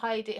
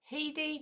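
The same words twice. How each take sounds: First: The first vowel sounds like 'eye', as in Heidi. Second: The first vowel sounds like 'eh', as spelled. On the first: The speaker calls it wrong. "not Heidi. Heidi's got an I in it" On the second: The speaker calls it right. "Spoken as read is H E D I"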